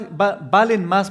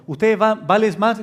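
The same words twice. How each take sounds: First: "valen" said slowly and carefully, after a restart on "va-"; corrected "valen más" spoken slowly; self-correction. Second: "vales" said by mistake for valen, with a stumble on "va-"; wrong verb form "vales" blurted mid-quote; slip of the tongue. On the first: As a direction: fix it to "valen más" deliberately. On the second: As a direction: let "vales más" slip out after a false start. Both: Real, not acted. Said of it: "perdón".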